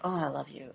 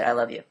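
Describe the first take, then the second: First: It is said warmly, with strong feeling. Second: It is said flatly, without feeling.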